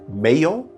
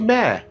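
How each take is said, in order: First: The word is said with two syllables. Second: The word is said as one syllable. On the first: The speaker calls it wrong. "Is it Mayo" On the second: The speaker calls it right. "it's actually Mare. It actually is a monosyllabic word that rhymes with mare"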